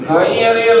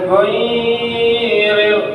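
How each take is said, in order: First: The first vowel is said short and direct. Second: The first vowel is drawn out long. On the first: The speaker calls it right. "Ghairil langsung Pak" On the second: The speaker calls it wrong. "jangan ghairil"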